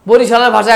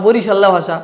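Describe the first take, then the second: First: Said in the usual way. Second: বরিশাল্লা said colloquially, with a doubled l; regional name form. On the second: Shown as a demonstration. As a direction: say বরিশাল্লা as local "bo-ri-shal-la". (বরিশাল্লা, আঞ্চলিক ঢঙে দ্বিত্ব ল দিয়ে) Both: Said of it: "ভাষা একরকম না".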